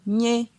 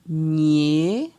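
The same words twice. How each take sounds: First: The syllable is said on a mid tone. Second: The syllable is said on a rising tone. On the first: "Ton euh, moyen" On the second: "Ton euh, montant"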